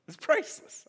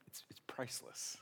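First: High, bright delight with a rise; excited. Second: Hushed, breathy delight; whisper. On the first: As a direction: burst out with glee. Repeats with delight. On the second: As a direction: whisper it like a secret treat. Savoring the murderer's face. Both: Real, not acted.

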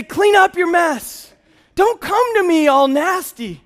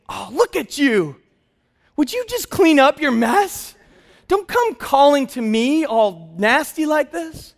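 First: High, slow, loud scolding; mock-shout the rejection at the child; disgusted dad scolding his toddler; harsh rejection. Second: Higher, slow and disdainful; mock disgusted dad turning the child away; disgusted scolding. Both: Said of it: "I didn't say".

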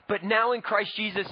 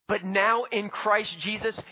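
First: Said in the usual way. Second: Slow, with now leaned on hard; stress on now. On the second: Real, not acted. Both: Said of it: "again, but now".

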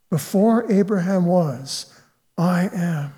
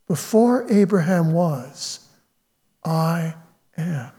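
First: Said in the usual way. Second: Before Abraham was, I am, said slow with a pause before I, fading soft on am; slow hushed emphasis. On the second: Shown as a demonstration. Preacher savours Jesus' claim to the congregation, slow and hushed. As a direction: let I am land slow and hushed.

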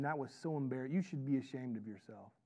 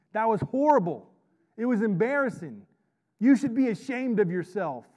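First: Much softer, lower shaming; hushed mock scolding. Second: Loud, higher-pitched shaming rant; mock scolding. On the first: God as wrongly imagined, shaming us for mistakes, hushed scolding. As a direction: scold under the voice, low and subdued. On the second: Father shaming his kids over saved diapers, loud mock scolding. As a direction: play the outraged parent, hammering each phrase.

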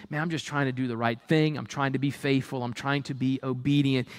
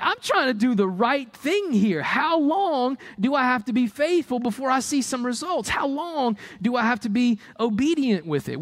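First: Low, quick tired sigh of a thought; a hint of a discouraged believer thinking; weary inner voice. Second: High, exasperated plea to heaven; lightly acted impatience with God; pleading believer. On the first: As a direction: mutter it to yourself, low and worn down. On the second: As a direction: argue with God, voice raised up high.

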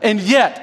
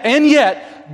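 First: Said in the usual way. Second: And yet said higher and firmer, weight on and; emphatic repeat. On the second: Real, not acted. Preacher turning the point for the congregation, emphatic and yet. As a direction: lift and yet to press the point home.

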